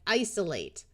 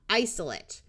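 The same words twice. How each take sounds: First: The last syllable has a clear long A. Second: The last syllable has a reduced schwa. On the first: It is used as a verb. "when they're used as a verb, we pronounce it with a clear long A" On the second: It is used as a noun. "When it's a noun, the A will schwa"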